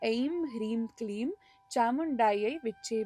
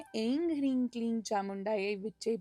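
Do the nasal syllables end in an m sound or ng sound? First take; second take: m sound; ng sound. First: The nasal syllables end with an m sound. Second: The nasal syllables end with an ng sound.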